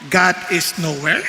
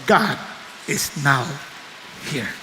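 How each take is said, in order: First: "nowhere" run together with a rising end; NOWHERE as one word. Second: "now", a clear pause, then "here", low; NOW HERE as two words. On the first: ("nowhere" na dire-diretso at pataas ang dulo) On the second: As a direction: split it into "now ... here", quietly settled. ("now" at "here" na pinaghiwalay ng hinto) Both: Shown as a demonstration. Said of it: "maaring masabi mong".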